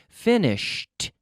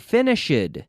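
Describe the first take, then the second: First: The ending is a plain T sound. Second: The ending is not a plain T sound. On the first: The speaker calls it right. "here we have a T sound in the past" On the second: The speaker calls it wrong. "you don't say finished"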